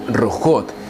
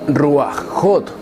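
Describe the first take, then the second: First: No a vowel comes before the ch sound. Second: An a vowel comes before the ch sound. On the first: The speaker calls it right. "su pronunciación en plural femenino sería rujot" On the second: The speaker calls it wrong. "y nunca ruajot"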